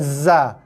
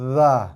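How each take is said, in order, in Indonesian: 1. Bunyi z bergetar dengan lidah di belakang gigi bawah. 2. Bunyi lembut seperti th yang bersuara di tepi gigi. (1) "bukannya za" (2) "atas hujung lidah sentuh gigi"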